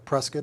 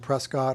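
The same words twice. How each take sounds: First: The name is said the Arizona way. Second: The name is said the non-Arizona way.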